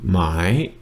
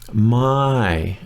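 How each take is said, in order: First: The pitch rises across the word. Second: The pitch falls across the word. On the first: It marks a question. "If it were the my rising tone" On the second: It means no or not. "My with a falling tone"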